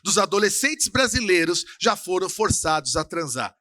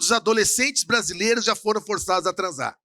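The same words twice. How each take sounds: First: The sentence is said more slowly. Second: The sentence is said at a normal pace.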